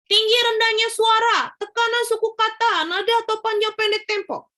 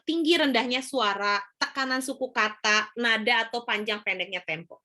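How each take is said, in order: First: The pitch stays too high throughout. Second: The pitch rises and falls with varied rhythm. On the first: The speaker calls it wrong. "Itu juga terlalu tinggi" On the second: The speaker calls it right. "ini kan Ibu tinggi rendah suaranya kelihatan ya"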